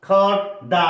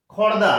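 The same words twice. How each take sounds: First: খড়দা broken into খড় and দা; syllable by syllable. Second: Said in the usual way. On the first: Shown as a demonstration. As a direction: say খড়দা as two separate beats, খড়, then দা. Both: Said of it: "সবসময় উচ্চারণ করবে syllable wise".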